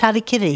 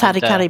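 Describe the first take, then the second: First: The third syllable has an 'i' vowel. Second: The third syllable has an 'a' vowel. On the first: The speaker calls it right. "but it's Harikiri" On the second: The speaker calls it wrong. "It was Harikari"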